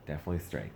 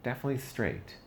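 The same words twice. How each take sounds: First: Said in the usual way. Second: "definitely" jumps high, then falls; emphatic first take. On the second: Retold or imitated. First take of the verdict on his dad, pitched high. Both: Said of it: "I was like".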